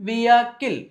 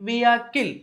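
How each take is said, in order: The two takes are said the same way.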